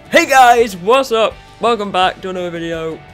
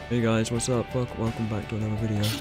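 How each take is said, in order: First: It is said loudly with high energy. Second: It is said flatly with low energy.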